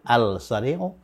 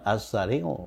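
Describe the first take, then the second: First: The l is pronounced before the s sound. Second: The l blends into a doubled s sound. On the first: The speaker calls it wrong. "bukan al-sari'u" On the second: The speaker calls it right. "Tambahi alif lam as-sari'u"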